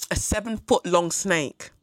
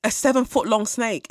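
First: Slow, weighing seven-foot-long in disbelief; slow, stunned repetition. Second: Higher and louder, "seven-foot-long" pushed with alarm; louder, higher, more alarmed; rising disbelief. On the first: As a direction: let "seven-foot-long" sink in slowly. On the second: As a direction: say "seven-foot-long" like it just hit you. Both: Real, not acted. Repeating snake size in disbelief.

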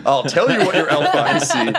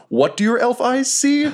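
First: "what your elf eyes see" raised but falling at the end; higher voice, closing "elf eyes see" as a statement; answering statement. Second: High-pitched, drawn-up question on "What do your elf eyes see?"; "What do your elf eyes see?" in a hammed-up high voice; theatrical question. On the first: Acted. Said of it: "some way to not phrase this as a question". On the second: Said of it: "not phrase this as a question".

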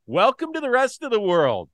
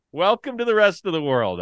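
First: Loud, high mocking taunt; gloating shout. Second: Loud high taunt, leaning on the; the repeated taunt, still loud; gloating shout again. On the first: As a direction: crow it at the rival fans. Taunting rival fans, loud. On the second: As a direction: rub it in a second time. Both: Real, not acted.

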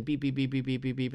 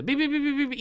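First: Steady, even run of beeps; bat sonar. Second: Beeps jumping up high; bat sonar closing in. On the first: Explaining how a bat hunts, imitated steady sonar beeps. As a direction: imitate a bat's sonar pinging at an even pitch. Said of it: "turn on the sonar". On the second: Bat closing on a bug, imitated high-pitched sonar beeps. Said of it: "eats the bug". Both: Retold or imitated.

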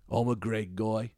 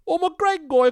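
First: Put-on I'm a Greg guy slow, at normal pitch, in a Liverpool accent; I'm a Greg guy, slow and even in a Liverpool accent. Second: Put-on I'm a Greg guy in a loud, very high Liverpool accent. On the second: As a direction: shout I'm a Greg guy like a Scouse caller. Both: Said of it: "this accent keeps coming back".

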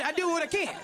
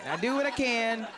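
First: High take. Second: Said in the usual way. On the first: Shown as a demonstration.

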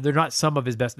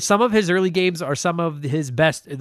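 First: Not stressed, lower and firm. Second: Said in the usual way. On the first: Shown as a demonstration. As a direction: lean on the word not.

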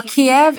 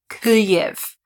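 First: Kiev said the Russian way, KEE-ev; the Russian version, Kiev as KEE-ev; Russian pronunciation. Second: Kyiv said slowly the Ukrainian way, KUY-iv; Ukrainian pronunciation. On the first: Podcaster contrasting the Russian name for listeners, Kiev as KEE-ev. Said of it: "Kiev is how they say it in Russian". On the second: Podcaster teaching listeners the correct Ukrainian name, slow careful Kyiv. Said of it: "The correct way to pronounce". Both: Shown as a demonstration.

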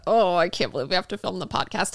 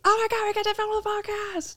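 First: A reluctant, put-upon complaint; mock dread. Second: High, squealed excitement; mock thrilled. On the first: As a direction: act out dreading a chore. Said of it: "it became like a". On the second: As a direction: squeal it like a delighted fan. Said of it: "like a today when we're like".

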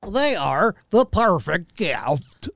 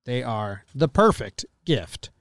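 First: Slow, exaggerated cheesy ad voice; mocking own ad read. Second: Said in the usual way. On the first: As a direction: parody your own clumsy read. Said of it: "mocking my own voice". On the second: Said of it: "I delivered it like a stupid idiot".

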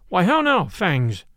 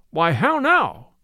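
First: Stern cry. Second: Slow, drawn-out exclamation; astonished cry. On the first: Will checks the charging hounds, crying sternly. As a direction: pull the dog up with a stern call. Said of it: "cried he sternly". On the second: Friar sees his dogs fawn on Will, crying out. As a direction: stretch it out in puzzled surprise. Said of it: "cried the stout friar". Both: A narrator's reading.

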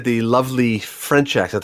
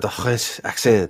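First: Said in the usual way. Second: Slow, put-on French accent on "the French accent"; mock French accent. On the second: Shown as a demonstration. Host mocking the trucker's lovely French accent, slow French accent. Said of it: "he did the lovely French accent".

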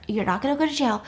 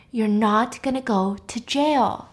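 First: Quick, matter-of-fact dismissal; acted hurried reassurance; brisk reassurance. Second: Slow, deliberate insistence; acted slow, emphatic promise; firm reassurance. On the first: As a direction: rattle it off to settle him. Brisk reassurance, later said slowly. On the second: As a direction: space out the words to get it through. Repeats firmly to panicking friend.

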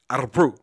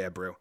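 First: Ebru with the r rolled on the tongue. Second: Said in the usual way. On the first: Shown as a demonstration. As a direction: roll your tongue on the r in Ebru. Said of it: "I rolled my tongue on it". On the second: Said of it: "I don't know why I did that accent".

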